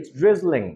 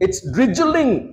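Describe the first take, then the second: First: Drizzling is said softly with a light z. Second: Drizzling is said harshly with a strong buzzing z. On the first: The speaker calls it right. "খুবই soft একটা উচ্চারণ" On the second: The speaker calls it wrong. "ফাটায় ফেলছি"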